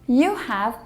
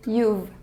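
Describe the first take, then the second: First: It is said as two full words. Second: It is shortened to one syllable.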